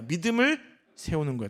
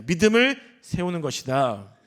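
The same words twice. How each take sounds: First: Said in the usual way. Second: Slow, emphatic motto for a congregation to repeat; repeat-after-me statement. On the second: Shown as a demonstration. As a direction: state "믿음을 세우는 것이다" slowly and firmly. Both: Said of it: "따라해 보겠습니다".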